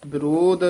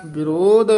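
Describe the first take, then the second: First: ਵਿਰੋਧ ending in unaspirated d; ਵਿਰੋਧ with dadda. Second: ਵਿਰੋਧ ending in aspirated dh; ਵਿਰੋਧ with dhadda. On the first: Teacher showing the error, ਵਿਰੋਧ with final d. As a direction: finish ਵਿਰੋਧ on a simple d sound. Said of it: "ਦੱਦੇ ਨਾਲ ਨਹੀਂ ਬੋਲਣਾ". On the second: Teacher correcting a reader, ਵਿਰੋਧ with final dh. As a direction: finish ਵਿਰੋਧ on a dh sound. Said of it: "ਧੱਦੇ ਨਾਲ ਬੋਲਣਾ ਹੈ". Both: Shown as a demonstration.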